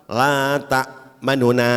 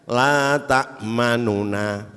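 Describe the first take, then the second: First: The vowel is clipped short and quick. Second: The phrase is recited at normal, unhurried speed. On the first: "kemudian dibaca cepat" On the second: "kalau dibaca biasa"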